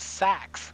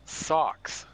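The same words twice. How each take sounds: First: SACKS with a flat a, as in "backs", for socks; regional vowel imitated. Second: Said in the usual way. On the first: Teasing her word for socks, "sacks" with a front a. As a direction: stretch "sacks" with a short front a. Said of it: "She says sacks". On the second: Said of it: "she doesn't say socks".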